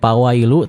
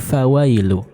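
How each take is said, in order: First: The word begins with a p sound. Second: The word begins with an f sound. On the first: The speaker calls it wrong. "bukan pawailu" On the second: The speaker calls it right. "tapi fawailu"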